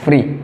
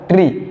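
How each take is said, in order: First: It begins with an f sound. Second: It begins with a plain t sound. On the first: It sounds like the word for not bound. "Quand tu prononces free, c'est le mot là que tu aurais prononcé" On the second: It sounds like the word for a plant. "si vous prononcez tri, ça serait ce mot-là"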